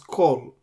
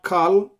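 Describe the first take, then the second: First: The vowel is a rounded oh sound. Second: The vowel is an open ah sound. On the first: The speaker calls it right. "this is kol" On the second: The speaker calls it wrong. "This is not kal"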